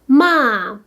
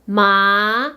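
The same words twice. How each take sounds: First: The pitch falls sharply from high to low. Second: The pitch rises from middle to high.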